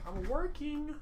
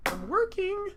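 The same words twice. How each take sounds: First: Said in the usual way. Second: "I'm working." jumped way up in a high squeal; mock-indignant high "I'm working."; high squeaky repeat. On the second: Shown as a demonstration. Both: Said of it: "What do you mean, what am I doing?".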